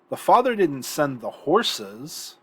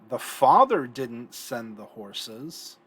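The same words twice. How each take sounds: First: The stress falls on the word horses. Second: The stress falls on the word father.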